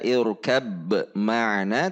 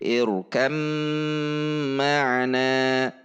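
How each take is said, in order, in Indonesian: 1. Bunyi b yang jelas diucapkan sebelum m. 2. Huruf b melebur sepenuhnya menjadi m yang bertasydid. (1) "tidak dibaca irkab ma'ana" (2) "tetapi irkam ma'ana"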